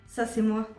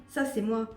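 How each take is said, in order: No difference in how they are said.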